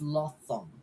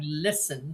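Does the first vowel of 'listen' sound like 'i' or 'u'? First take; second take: u; i. First: The first vowel is a central 'u' sound. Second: The first vowel is a clear 'i' sound. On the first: The speaker calls it wrong. "she puts the vowel U instead of I" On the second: The speaker calls it right. "Instead of saying listen"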